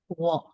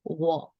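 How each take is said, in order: First: The word is said on a falling tone. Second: The same.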